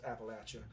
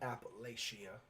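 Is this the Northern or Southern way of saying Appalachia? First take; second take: Southern; Northern. First: The middle sounds like "apple at you". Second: The middle does not sound like "apple at". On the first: This is how locals in the South say it. The speaker calls it right. "it is actually pronounced Appalachia ... we down here we like to say, "Oh, we're gonna throw an apple at you, Appalachia."" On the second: This is how Northerners say it. The speaker calls it wrong. "not Appalachia. Appalachia is what you Yanks like to say"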